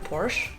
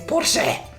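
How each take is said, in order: First: It is said with an English pronunciation. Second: It is said with a German pronunciation. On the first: "if I speak English, I say Porsche" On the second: "if I speak German, I say Porsche"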